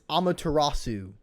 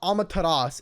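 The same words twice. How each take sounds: First: The name is said with Japanese-style pronunciation. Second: The name is said with English-style pronunciation. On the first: The speaker calls it right. "it's Amaterasu" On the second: The speaker calls it wrong. "it's not Amaterasu"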